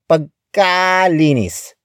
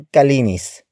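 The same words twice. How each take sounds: First: The ka syllable is strongly exaggerated. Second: The ka syllable is said normally.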